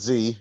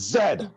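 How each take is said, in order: First: The letter is said as zee. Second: The letter is said as zed. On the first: This is how the letter is said elsewhere. The speaker calls it wrong. "not Z" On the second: This is how the letter is said locally. The speaker calls it right. "it's Z over here"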